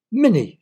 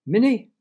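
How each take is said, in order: First: High, loud, annoyed shout, falling at the end. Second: High, loud, questioning call. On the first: Little girl annoyed at her cat up a tree, shouting. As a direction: shout the name as a command. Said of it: "she shouted". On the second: Little girl searching a field for her cat, calling. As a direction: call for a lost pet, rising at the end. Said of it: "she was calling someone". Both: A narrator's reading.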